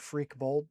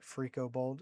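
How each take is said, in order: First: The name has two syllables, with no vowel between. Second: The name has three syllables, with an added vowel. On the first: The speaker calls it right. "Doctor Freak Bold" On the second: The speaker calls it wrong. "not Freako Bold"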